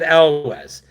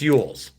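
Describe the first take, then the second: First: The name begins with an 'el' sound. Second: The name begins with a 'y' sound. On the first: This is how the speaker always said it. "I pronounced it Elwes" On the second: This is how someone corrected the speaker. "somebody goes, No, it's it's Yules"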